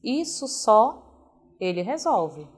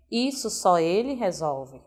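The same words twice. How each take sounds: First: Slow, with a break after só before ele resolve; pause after só. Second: Só ele resolve said as one unit; no pause. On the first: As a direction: hero reading, Isso só, then ele resolve. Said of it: "Uma vírgula pode criar heróis". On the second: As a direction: run the phrase together with no break. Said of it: "Pode criar vilões". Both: Shown as a demonstration.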